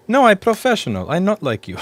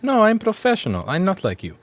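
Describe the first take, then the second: First: Laughing, high and loud; laughing quote. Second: A hint of a haughty woman; lightly voiced haughty coworker; customer quote. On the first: Retold or imitated. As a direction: quote it while cracking up. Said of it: "we almost pissed ourselves laughing". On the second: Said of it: "And she goes".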